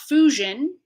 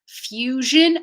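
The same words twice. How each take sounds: First: There is no y sound after the f. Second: A y sound follows the f. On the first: The speaker calls it wrong. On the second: The speaker calls it right. "will be with the yod"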